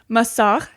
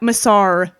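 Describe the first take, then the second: First: It has a French-style throaty sound. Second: It is said with an American accent. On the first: "it's the throat noise" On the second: "To say it in an American way"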